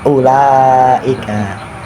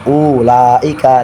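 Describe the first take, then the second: First: The first vowel is kept short. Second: The first vowel is drawn out long. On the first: The speaker calls it right. "tapi ulaika" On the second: The speaker calls it wrong. "Aja ulaika"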